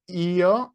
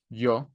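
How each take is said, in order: First: The word is said the Italian way. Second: The word is said the Spanish way. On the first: The speaker calls it wrong. "that's Italian" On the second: The speaker calls it right. "In Spanish would be yo"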